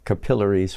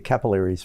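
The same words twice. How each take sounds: First: The word is said with an Australian pronunciation. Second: The word is said with an American pronunciation. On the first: "I like the way you say that in Australian" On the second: "We say capillaries"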